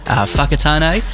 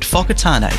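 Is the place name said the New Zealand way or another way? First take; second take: another way; New Zealand. First: The name is said with a non-local pronunciation. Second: The name is said the local New Zealand way. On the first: The speaker calls it wrong. "it's not Fuckatane" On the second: The speaker calls it right. "That's how you say it"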